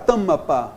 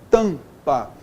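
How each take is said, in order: First: The M is said with an extra vowel after it. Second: The M only nasalizes the vowel before it. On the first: The speaker calls it wrong. "ninguém fala tamapa" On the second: The speaker calls it right. "Todo mundo fala o quê? Tampa"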